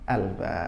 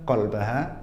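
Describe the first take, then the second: First: It begins with a glottal stop. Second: It begins with a deep K-like sound.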